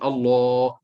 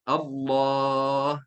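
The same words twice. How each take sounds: First: The word is said with lips pushed out, overly heavy. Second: The word is said without pushing the lips out. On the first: The speaker calls it wrong. "Tak boleh kita sebut Allah. Tak, salah" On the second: The speaker calls it right. "mesti kena sebut dengan cara tanpa muncul mulut"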